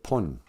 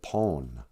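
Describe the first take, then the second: First: The vowel is a short 'uh' sound. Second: The vowel is a long 'o' sound. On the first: "why is he saying it pun?" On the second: "every day you're harping on how the O is long"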